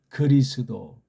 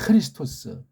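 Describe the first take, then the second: First: It begins softly and ends in a 'do' sound. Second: It begins with aspiration and ends in 'tos'. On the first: The speaker calls it wrong. "엉터리 발음이에요" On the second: The speaker calls it right. "정확하게는"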